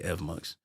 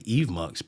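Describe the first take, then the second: First: The first syllable has a short 'e' vowel. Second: The first syllable has a long 'ee' vowel. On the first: The speaker says it this way. The speaker calls it right. "I would say Evmux" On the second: Many other people say it this way. The speaker calls it wrong. "I hear a lot of people say Evmux, but I don't. I don't see where it's E V E"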